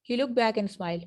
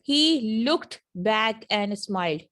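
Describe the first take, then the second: First: The words run together quickly with sounds dropped. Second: Each word is said slowly and separately. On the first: "इन जुमलों को जरा तेजी तेजी से बोलें।" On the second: "पहले आप अलग अलग बोलें"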